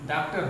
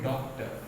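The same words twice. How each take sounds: First: The first vowel is an open unrounded 'aa'. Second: The first vowel is a rounded 'aw' sound. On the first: The speaker calls it wrong. "अगर हम ये नहीं लगाएंगे तो ये डॉक्टर हो जाएगा" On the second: The speaker calls it right. "अंग्रेजी का जो शब्द है वो है डॉक्टर"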